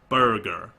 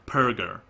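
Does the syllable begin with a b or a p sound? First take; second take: b; p. First: The syllable begins with a b sound. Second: The syllable begins with a p sound. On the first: The speaker calls it wrong. "not burger" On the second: The speaker calls it right. "So perger"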